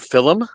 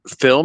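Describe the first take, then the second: First: It is said with a Philadelphia accent. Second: It is said with a standard American pronunciation. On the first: "and not film" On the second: "I call it film"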